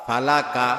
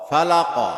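First: ফালাকা with an open a at the end; ফালাকা said as falaka, every vowel a clear a; ফালাকা with the proper fatha a; correct zabar reading. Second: ফালাকা ending in a rounded o; ফালাকা said as falako, the last vowel an o; ফালাকা with a Bengali final o; Bangla-style reading. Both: Shown as a demonstration. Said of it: "জবরযুক্ত শব্দের উচ্চারণের পার্থক্য".

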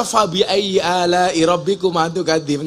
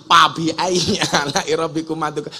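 First: "Fabi" with a clear F, recited properly; correct Arabic recitation. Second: "Fabi" said as pabi, F turned to P; Sundanese accent. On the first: Preacher showing the proper recitation with F. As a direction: recite "Fabi ayyi ala'i" with a true F. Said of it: "Nggak bisa". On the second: Preacher mimicking a Sundanese reciter who says pabi for Fabi. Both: Shown as a demonstration.

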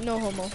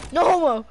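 First: Lower, muted mimicry; understated, low-key echo; quiet imitation. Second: Raised, emphatic exclamation; bold, open delivery; louder retake. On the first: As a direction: mimic someone saying it under their voice. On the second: Shown as a demonstration. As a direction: say it out loud with punch. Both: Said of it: "Like, you said it quietly".

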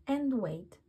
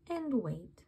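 The two takes are said the same way.

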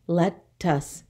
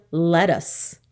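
First: "Lettuce" split in two, let-tuce; syllable by syllable. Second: Said in the usual way. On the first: Shown as a demonstration. Teacher counting two syllables, "Lettuce" in two separate beats. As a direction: say "Lettuce" with a gap after the first syllable. Syllable lesson, word broken up.

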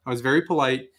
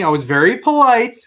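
First: Said in the usual way. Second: High-pitched show of politeness; very polite. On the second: Retold or imitated. Customer insisting he was nice to the cashier, exaggeratedly polite. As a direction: lift it sweetly to stress your good manners.

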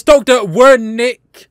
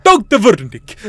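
First: Said in the usual way. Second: "Wernick" with a German V; attempted German accent, drifting towards Russian on "Wernick". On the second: Shown as a demonstration. Player trying out the doctor's name, mock German accent. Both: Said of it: "that sounds German".

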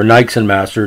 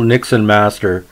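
First: Long i in "Nixon", as in "nice"; "Nixon" starting with the sound "nike", rhyming with "bike"; long-i pronunciation. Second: Short i in "Nixon", as in "nick"; "Nixon" starting like the word "nick"; short-i pronunciation. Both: Shown as a demonstration. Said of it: "depending how you wanna pronounce it".

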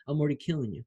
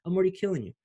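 First: Said in the usual way. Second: Higher, punchier second take; excited repeat. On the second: Real, not acted. Pitched up as he hypes his viewers. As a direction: hit it harder, pitched up.

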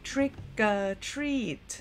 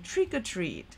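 First: "trick or treat" drawn out word by word; slow-motion pronunciation of "trick or treat"; slow demonstration. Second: "trick or treat" run together as one phrase; connected-speech "trick-a-treat"; faster, linked. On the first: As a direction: say "trick or treat" very slowly, each sound separated. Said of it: "ออกเสียงช้าๆ". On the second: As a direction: link "trick or treat" smoothly at a quicker speed. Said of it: "พอพูดเร็วขึ้นจะกลายเป็น". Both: Shown as a demonstration.

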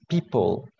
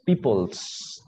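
First: Said in the usual way. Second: "peoples" with an added s on the end; wrong plural demo. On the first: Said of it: "No decimos, ah, no decimos peoples". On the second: Shown as a demonstration. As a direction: say "peoples" with a clear final s. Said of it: "no le agregamos la S".

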